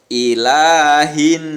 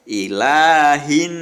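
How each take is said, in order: No difference in how they are said.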